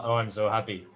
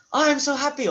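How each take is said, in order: First: Said in the usual way. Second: High, loud gush of Oh, I'm so happy. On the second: Shown as a demonstration. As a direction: burst with joy on Oh, I'm so happy. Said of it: "not through the".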